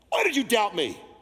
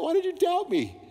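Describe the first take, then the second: First: It is said in an angry, scolding tone. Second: It is said in a warm, smiling tone.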